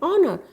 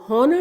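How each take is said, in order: First: The word begins with a vowel sound. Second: The word begins with an h sound. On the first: The speaker calls it right. "हम बोलते हैं ऑनर" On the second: The speaker calls it wrong. "हम हॉनर नहीं बोलते हैं"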